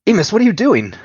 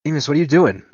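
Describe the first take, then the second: First: Much higher, louder desperate plea, stress on "you"; near-scream of disbelief at a friend; panicked shout. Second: Raised, louder pleading question, stress on "doing"; alarmed cry. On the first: Nico's alarm peaks. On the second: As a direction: call out in alarm to a bleeding friend. Nico alarmed, friend is bleeding. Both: Acted.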